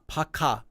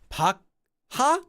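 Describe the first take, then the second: First: The k is released with a puff of air. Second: A k is followed by a separate h sound. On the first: The speaker calls it right. "It's air" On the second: The speaker calls it wrong. "No, it's not an H"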